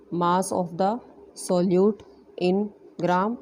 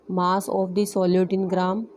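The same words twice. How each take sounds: First: Slow, spaced-out repeat for note-taking; deliberate dictating pace; slow dictation. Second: Said in the usual way. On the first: Shown as a demonstration. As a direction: spell it out slowly so students can write. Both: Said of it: "teacher repeats phrase for dictation".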